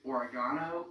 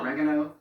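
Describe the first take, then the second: First: It is said the Australian way. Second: It is said the American way. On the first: "Third is oregano" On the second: "or as we say in the English"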